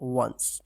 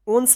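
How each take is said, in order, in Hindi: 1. यह 'wuh' ध्वनि से शुरू होता है। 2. यह 'oh' ध्वनि से शुरू होता है। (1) "वंस पढ़ेंगे" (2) "ओंस नहीं"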